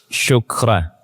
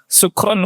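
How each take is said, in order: First: The word begins with an sh sound. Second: The word begins with a plain s sound. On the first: It means thank you. The speaker calls it right. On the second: It sounds like a word for being drunk. The speaker calls it wrong. "Sin terus"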